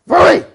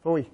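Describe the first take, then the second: First: Loud, high, harsh "Phooey"; guttural shout. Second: Short, contained "Phooey"; short guttural correction. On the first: Trainer stopping a dog, guttural shout. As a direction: explode on it to stop the dog. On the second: Trainer correcting a dog, short firm guttural. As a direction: cut "Phooey" off quickly. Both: Shown as a demonstration. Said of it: "Three guttural ways".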